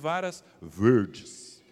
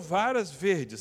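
First: It is said in an interior São Paulo accent. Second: It is said in a standard Brazilian accent.

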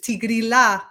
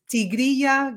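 First: Italian pronunciation, the double l sounding like l. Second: Spanish pronunciation, the double l sounding like y. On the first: "they pronounce it the Italian way, which is Tigrilla Gardenia, not the ya" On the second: "the name is actually in Spanish"

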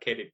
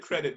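First: It is said with a Thai accent. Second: It is said with a plain English accent. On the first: "but like bat kredit" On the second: "The fact you didn't say credit"

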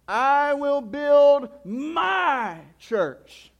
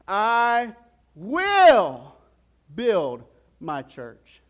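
First: The stress falls on the word "my". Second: The stress falls on the word "will". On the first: "And then he says it this way" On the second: "Then he goes on to say it this way"

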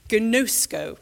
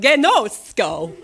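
First: The word is said plainly and neutrally. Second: The word is said in a flamboyant, showy way.

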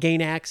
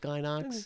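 First: The A vowels are said the English way. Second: The A vowels are said the Japanese way. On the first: "So you can call it Gainax if you want" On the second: "I'm using the A's, the long A's that the Japanese pronunciation would be"

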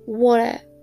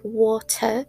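First: The middle t becomes a glottal stop. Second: The middle t is clearly pronounced. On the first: "they do not pronounce t" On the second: "pronounce it t distinctively"

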